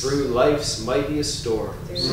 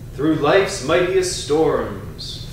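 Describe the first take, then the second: First: The voice is at ordinary speaking level. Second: The voice is loud and strong. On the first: "then a normal speaking voice" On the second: "first in a strong voice"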